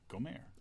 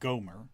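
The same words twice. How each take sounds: First: The stress is on the second syllable. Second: The stress is on the first syllable. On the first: This is the original Hebrew way. "the accent's on the second syllable" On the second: This is the usual modern way. "We say Gomer"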